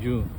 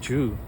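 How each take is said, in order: First: The word begins with a y sound. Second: The word begins with a j sound. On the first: The speaker calls it wrong. "not you. I keep saying you" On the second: The speaker calls it right. "So it's Ju"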